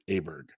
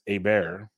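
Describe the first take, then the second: First: The name has an American English pronunciation. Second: The name has a Swedish pronunciation. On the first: This is an acceptable version for American speakers. "an acceptable U.S. pronunciation is Åberg" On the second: This is how it is said in the home country. "over there, it's Åberg"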